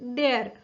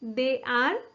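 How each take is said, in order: First: It is said as one contracted syllable. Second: It is said as two full separate words.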